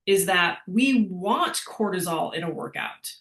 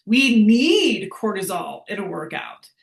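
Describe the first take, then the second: First: Said in the usual way. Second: Need punched louder and held; stress on need. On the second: Shown as a demonstration. Coach stressing need to the class, louder on need. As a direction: lean hard on the word need.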